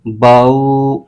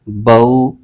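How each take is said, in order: First: The glide is stretched out long. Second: The glide is soft, neither jolted nor stretched. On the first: The speaker calls it wrong. "हरूफ लीन को लंबा खींच देते हैं" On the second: The speaker calls it right. "बगैर खींचे, बगैर झटका दिए नरमी से"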